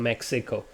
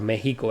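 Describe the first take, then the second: First: Mexico is said with an English pronunciation. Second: Mexico is said with a Spanish pronunciation.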